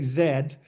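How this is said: The letter is said the Canadian way, "zed".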